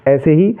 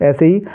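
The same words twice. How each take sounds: The two takes are said the same way.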